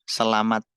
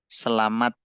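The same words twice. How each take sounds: No difference in how they are said.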